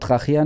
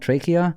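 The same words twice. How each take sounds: First: The word is pronounced the German way. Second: The word is pronounced the American way. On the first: "wenn man das Wort Trachea nimmt" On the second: "dann sagen die Amer- Amerikaner Trachea"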